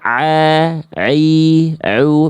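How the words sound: The vowels are produced deep in the throat. The speaker calls it right. "yang betul-betul dari tengah tenggorokan"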